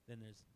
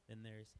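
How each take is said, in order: The two takes are said the same way.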